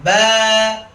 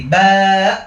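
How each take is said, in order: First: High, long "ব্যা" left open at the end; sustained open "baa", freely released; released to the horizon. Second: Loud long "ব্যা" cut by a glottal stop; hamza at the end. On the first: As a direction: let "ব্যা" float out, no glottal catch. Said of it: "দিগন্তে ছেড়ে দিব". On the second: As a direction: stretch "ব্যা" then choke it off in the throat. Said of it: "শেষে একটা হামজা এনে ফেলি". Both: Shown as a demonstration.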